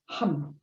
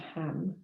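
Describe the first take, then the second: First: The vowel sounds like the one in 'hum'. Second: The vowel sounds like the one in 'ham'. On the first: "it's sometimes pronounced so hum" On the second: "as opposed to ham"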